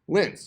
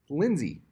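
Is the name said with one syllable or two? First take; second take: one; two. First: The name is said as one syllable. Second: The name is said as two syllables. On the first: The speaker calls it wrong. "you'd think" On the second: The speaker calls it right. "it's not how it's pronounced. Lindsay"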